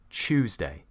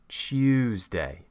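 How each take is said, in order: First: It begins with a ch sound. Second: It begins with a t and y sound. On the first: This is a common southern British pronunciation. "a lot of British people will actually say" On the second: This is a British pronunciation. "we create the y and it becomes"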